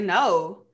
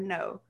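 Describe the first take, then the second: First: It is said bluntly, with attitude. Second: It is said softly, without attitude. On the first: The offer is flatly and rudely refused. "I didn't say it like that though" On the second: The offer is declined politely. "I ain't say it with no type of attitude"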